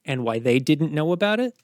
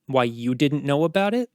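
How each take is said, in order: First: "they" picked out, rising at the end; stress on THEY. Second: "you" picked out, rising at the end; stress on YOU. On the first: Commander widening blame to others, "they" stressed. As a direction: lean on "they", end on a rise. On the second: Commander turning blame on knight, "you" stressed. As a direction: lean on "you", end on a rise. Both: Acted.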